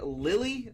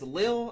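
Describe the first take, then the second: First: The name is said with two syllables. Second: The name is said with one syllable. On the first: The speaker calls it wrong. "You want to say Lily" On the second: The speaker calls it right. "but it's Lille"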